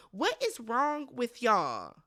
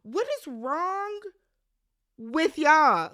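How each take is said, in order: First: Drawn-out, weary "What is wrong with y'all?"; slow, tired disbelief; slow exasperated question. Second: "What is wrong" pitched higher and slow, then "with y'all?" punched out loud; high, slow start, then a loud "with y'all"; outraged repeat. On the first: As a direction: ask it slowly, fed up. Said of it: "pissed me smooth the fuck off". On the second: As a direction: demand an answer, building to a shout on "y'all". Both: Real, not acted.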